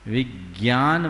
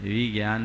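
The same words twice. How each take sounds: First: विज्ञान with weight on विग्, slightly louder; correct pronunciation. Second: विज्ञान said quickly with no weight on the first syllable; wrong pronunciation. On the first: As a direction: stress the first syllable of विज्ञान before ज्ञ. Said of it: "विज्ञान बोलते हैं". (विज्ञान में विग् पर ज़ोर) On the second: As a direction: slur विज्ञान, the unstressed wrong way. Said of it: "विज्ञान नहीं बोलते". (विज्ञान जल्दी, बिना ज़ोर के) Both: Shown as a demonstration.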